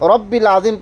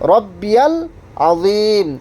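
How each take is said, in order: First: It is said without a 'ya' sound after 'rabbi'. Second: It is said with a 'ya' sound after 'rabbi'. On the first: The speaker calls it wrong. "রব্বিল আজিম পড়বেন না" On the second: The speaker calls it right. "সঠিকভাবে সুবহানা রব্বিয়াল আজিম"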